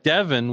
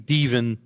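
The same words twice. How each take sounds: First: The first vowel is a short E sound. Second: The first vowel is a long E sound.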